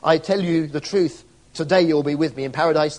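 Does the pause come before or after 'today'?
before. The pause comes before the word today.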